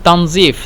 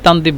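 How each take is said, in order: First: The middle consonant is a z-like sound. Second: The middle consonant is a d sound. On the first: "তানজিফকে" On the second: "তানজিফকে তানদিফ বলে দোয়া দিয়ে বলে"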